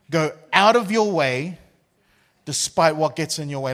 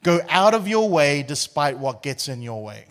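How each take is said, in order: First: Preacher's emphatic repeat; preached repeat. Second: Said in the usual way. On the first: Acted. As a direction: drive it home to the church.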